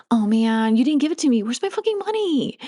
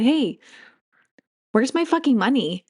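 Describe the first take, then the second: First: Frustrated demand. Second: Cheerful, bouncy demand for the money; said with joy. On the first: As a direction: complain like you've been cheated. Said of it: "That's very different energy". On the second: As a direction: ask for it like it's good news. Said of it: "and you said it with joy". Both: Shown as a demonstration.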